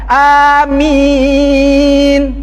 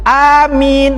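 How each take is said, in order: First: The second vowel is held longer, four beats. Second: The second vowel is held briefly, two beats. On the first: "Atau panjang sedikit minnya empat harokat. ... itu empat" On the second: "Samakan min itu panjangnya dengan A tadi"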